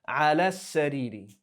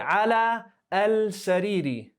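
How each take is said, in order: First: The L blends into a doubled S sound. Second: A full L sound is said before sariri. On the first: The speaker calls it right. "Remember lam shamsiyah?" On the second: The speaker calls it wrong. "we don't say ala al-sariri"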